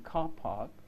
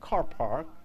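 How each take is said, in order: First: The r sound is left out. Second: The r sound is clearly pronounced. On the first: This is how it is said in England. "which is what they say in England" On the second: This is how it is said in Arizona. "which is what they will say in Arizona. They'll pronounce the r"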